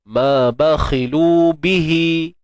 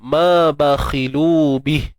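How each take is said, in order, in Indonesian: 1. Kata terakhir berakhir pada vokal yang dibaca panjang dua ketukan. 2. Kata terakhir berakhir tanpa vokal terakhirnya. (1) "Kalau sambung" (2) "Kalau berhenti tak jadi dua tu"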